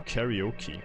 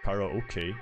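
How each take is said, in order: First: It is said with an English pronunciation. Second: It is said with a Japanese pronunciation. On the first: "like English speaker" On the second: "like the original Japanese"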